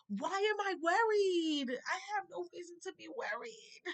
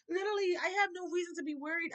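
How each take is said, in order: First: High, slow, tearful voice; crying. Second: Quick, higher, laughing through it. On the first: Telling viewers she has no reason to worry, crying. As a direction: let the tears break through the words. Quoting her own faith, voice cracking. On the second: Repeating to viewers she has no reason to worry, laughing. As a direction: laugh it off and rush the words. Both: Real, not acted.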